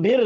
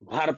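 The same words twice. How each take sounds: First: भीर said with a long ee vowel, as in "bheer"; भीर with the wrong ee vowel, "bheer"; wrong vowel demo. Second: भर said with a short a vowel, as in "bhur"; भर with the correct short vowel, "bhur". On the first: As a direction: say भीर with an i sound to show the mistake. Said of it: "हम भीर नहीं पढ़ेंगे". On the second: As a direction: say भर with the short a that zabar gives. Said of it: "हम क्या पढ़ेंगे". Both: Shown as a demonstration.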